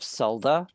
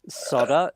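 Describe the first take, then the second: First: It is said with a non-American pronunciation. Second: It is said with the American pronunciation. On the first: The speaker calls it right. "instead of solder" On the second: The speaker calls it wrong. "when they say solder ... I'm looking at you, Americans"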